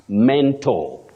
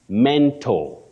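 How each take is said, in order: The two takes are said the same way.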